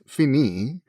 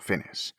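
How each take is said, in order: First: The word ends with a vowel sound. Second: The word ends with an s sound.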